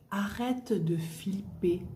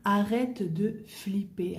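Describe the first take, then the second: First: Slow whispered "arrête de flipper"; whispered model phrase. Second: Slow spoken "Arrête de flipper", stress on "Arrête"; slow clear model phrase. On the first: Teacher whispering slang example to learners. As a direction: breathe it slowly, stress on "arrête". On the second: Teacher repeating slang slowly and aloud. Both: Shown as a demonstration.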